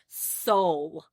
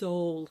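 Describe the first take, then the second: First: The word is said in a country accent. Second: The word is said without a country accent. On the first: The speaker calls it wrong. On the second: The speaker calls it right.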